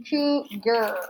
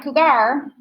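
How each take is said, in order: First: COUGAR as KOO, ger, in two separate beats; correct pronunciation. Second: COUGAR ending in a stressed, rising GAR; mispronounced COUGAR with full "ar" ending; wrong pronunciation. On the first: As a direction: say COUGAR with a falling er ending. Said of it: "er, not cougar". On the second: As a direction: say COUGAR as koo-GAR, rhyming with car. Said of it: "not cougar". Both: Shown as a demonstration.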